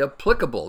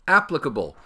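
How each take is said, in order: First: The stress falls on the second syllable. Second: The stress falls on the first syllable. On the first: The speaker calls it wrong. "People say applicable. They think, I guess, it's fancier" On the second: The speaker calls it right. "The same with applicable"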